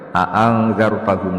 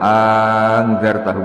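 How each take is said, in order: First: Both glottal stops at the start are fully pronounced. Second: The two glottal stops at the start merge into one. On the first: "bitahqiqil hamzatain, hamzahnya dibaca tahqiq" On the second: "bil idgham"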